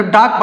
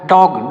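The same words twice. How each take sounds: First: डॉग said as daag with a flat aa; wrong way. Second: डॉग with the open aw vowel, between o and aa; correct way. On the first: Teacher warning children not to say डॉग as daag. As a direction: say डॉग as daag, the sound to avoid. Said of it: "ना तो डॉग पढ़ेंगे". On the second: Teacher giving children the right डॉग with open aw. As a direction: say डॉग as dawg, pitched low. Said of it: "क्या पढ़ेंगे, डॉग". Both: Shown as a demonstration.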